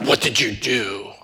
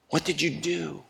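First: It is asked in a harsh, accusing tone. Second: It is asked in a gentle, caring tone.

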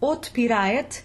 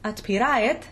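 First: The first vowel sounds like a full 'o'. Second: The first vowel sounds like an open 'a'. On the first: The speaker calls it wrong. "it would give the wrong stressed syllable" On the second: The speaker calls it right. "should be closer to an A sound"

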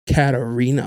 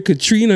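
First: The name is said as Katarina. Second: The name is said as Katrina. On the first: The speaker calls it right. "And she's like" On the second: The speaker calls it wrong. "Said that was so confident"

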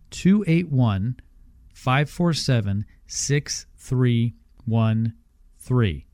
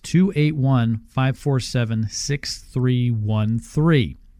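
First: The number is read slowly. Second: The number is read at normal speed.

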